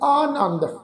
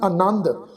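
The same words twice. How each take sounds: First: The first vowel is long, like 'aa'. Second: The first vowel is short, like 'a'. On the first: "ਆਨੰਦ ਐੜੇ ਨੂੰ ਕੰਨੇ ਦੀ ਮਾਤਰਾ ਸੀ" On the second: "ਇੱਥੇ ਐੜਾ ਅੱਖਰ ਮੁਕਤਾ ਵਾ ਜੀ, ਇਹਦਾ ਉਚਾਰਨ ਕਰਾਂਗੇ ਆਨੰਦ"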